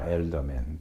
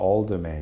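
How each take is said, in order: First: The first syllable is said as 'el'. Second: The first syllable is said as 'al'. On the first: "시카고는 엘더맨이라고 합니다" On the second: "에이엘이 되니까 alderman 이렇게 발음하는 사람들도 많습니다"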